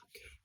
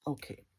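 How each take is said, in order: First: Tiny voiceless whisper; barely audible acted reaction. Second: Said in the usual way. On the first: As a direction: whisper it under your breath. Acted reaction, whispered first take.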